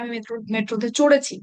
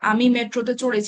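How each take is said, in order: First: It is said with strong force and emphasis. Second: It is said plainly with no added force. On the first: The speaker insists on it to a doubting listener. "আরো জোর দিয়ে অনেক শক্তি প্রয়োগ করে বলছি" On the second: The speaker simply informs a listener who does not know. "এখানে কিন্তু কোনো জোর নেই"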